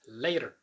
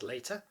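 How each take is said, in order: First: The middle T is a quick flap. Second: The middle T is a clear T. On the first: "in American English it's later" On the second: "British English, pronounced as later"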